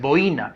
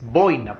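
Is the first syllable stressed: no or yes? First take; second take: no; yes. First: The stress is not on the first syllable. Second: The stress is on the first syllable. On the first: The speaker calls it wrong. "la palabra no es boina" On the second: The speaker calls it right. "La fuerza de voz es bo"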